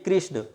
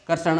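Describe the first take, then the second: First: The first syllable sounds like 'ri'. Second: The first syllable sounds like 're'. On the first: The speaker calls it right. "हमें क्या बोलना चाहिए कृष्ण" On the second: The speaker calls it wrong. "और हम इसे रे समझ लेते हैं"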